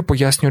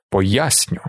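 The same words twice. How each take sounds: First: Said in the usual way. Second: Understated mocking repeat, rising at the end; mocking echo. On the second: A narrator's reading. Jamis mimics Paul cutting in on his explanation, mocking. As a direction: mimic the word back with a slight jeer. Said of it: "передражнив Джаміс".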